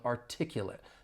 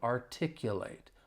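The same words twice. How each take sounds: First: The final syllable has a short I sound. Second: The final syllable has a long A sound. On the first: It is used as an adjective. "that final syllable has more of a short I sound" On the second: It is used as a verb. "the final syllable has that long A sound"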